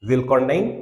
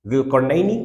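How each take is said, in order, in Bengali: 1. শব্দটি কোনো শেষ স্বরবর্ণ ছাড়া শেষ হয়। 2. শব্দটি শেষ 'i' স্বরবর্ণ দিয়ে শেষ হয়।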